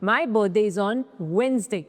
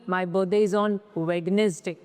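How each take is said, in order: First: The d in Wednesday is silent. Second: The d in Wednesday is pronounced. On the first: The speaker calls it right. "इसमें भी डी silent है" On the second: The speaker calls it wrong. "वेडनेसडे नहीं होता है"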